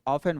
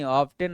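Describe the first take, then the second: First: The t sound is silent in the middle. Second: The t sound is pronounced in the middle. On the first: The speaker calls it right. "ऑफन बोलते हैं इसको" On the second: The speaker calls it wrong. "ऑफ्टेन नहीं बोलते"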